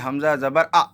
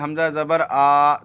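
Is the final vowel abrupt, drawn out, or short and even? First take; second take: abrupt; drawn out. First: The final vowel is cut off with a jolt. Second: The final vowel is stretched out long. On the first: "यानी झटका देंगे" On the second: "ये सही नहीं होगा, क्योंकि ... जल्दी पढ़े, थोड़ा भी ना खींचे"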